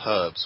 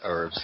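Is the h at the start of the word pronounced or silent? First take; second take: pronounced; silent. First: The word begins with an audible h sound. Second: The word begins with no h sound. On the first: The speaker calls it right. "I do insist that everyone pronounces it herbs with an H" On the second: The speaker calls it wrong. "There's none of this herbs"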